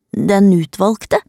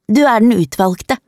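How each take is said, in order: First: Slow, questioning "Den utvalgte", rising at the end; puzzled echo. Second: Slightly raised, pronouncing "utvalgte" as a statement; declaring. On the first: Child echoes the girl's claim, puzzled. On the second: Girl from the ditch names her helper, declaring. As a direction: announce "Du er den utvalgte" to the listener. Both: A narrator's reading.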